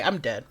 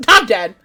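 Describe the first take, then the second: First: Said in the usual way. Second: Laughing. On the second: Real, not acted.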